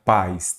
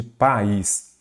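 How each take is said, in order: First: Pais as one syllable, PAIS; diphthong. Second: País in two syllables, pa-ÍS; hiatus. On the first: Teacher contrasting pais with país, as a diphthong. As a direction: glide the a into the i in pais. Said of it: "Aqui eu tenho um ditongo". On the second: Teacher contrasting país with pais, as a hiatus. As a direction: split the vowels of país, stressing the í. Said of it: "vogal, sílaba diferente". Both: Shown as a demonstration.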